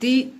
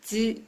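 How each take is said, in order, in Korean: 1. 이 음절은 평범한 'd' 소리로 시작해요. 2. 이 음절은 'j' 소리로 시작해요. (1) "다, 디, 드, 데, 도가 아니라" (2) "다, 지, 즈, 데, 도예요"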